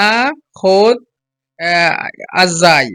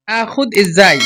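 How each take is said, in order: First: "আখুদ, আহ, আজ্জাই" broken up with hesitant gaps, ending in আজ্জাই; broken mispronunciation. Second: "আখুদ ইজ্জাই" joined smoothly, with a clear ই opening ইজ্জাই; correct pronunciation. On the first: Teacher mimics learners' odd pronunciation, "আখুদ, আহ, আজ্জাই" in broken pieces. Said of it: "অন্যরকম ভাবে". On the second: Teacher shows learners good pronunciation, "আখুদ ইজ্জাই" said connected and clear. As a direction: model "আখুদ ইজ্জাই" as one connected phrase. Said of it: "এই যে সুন্দর উচ্চারণ". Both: Shown as a demonstration.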